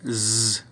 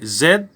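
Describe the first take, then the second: First: The letter is said as its bare sound. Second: The letter is said by its full name. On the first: This is how the letter sounds in words. "lè na prononse nou gen Z" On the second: This is how the letter is read aloud. "en lecture nou gen Z"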